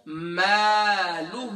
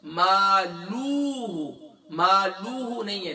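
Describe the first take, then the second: First: "مالہ" drawn out slowly and clearly; slow recitation. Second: "مالوہ" with the lam stretched into an extra واو; wrong stretched reading. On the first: Shown as a demonstration. Teacher modeling the word for his students. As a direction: lengthen "مالہ" carefully. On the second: Retold or imitated. Teacher showing the common mistake of adding a واو. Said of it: "اکثر پڑھتے ہیں".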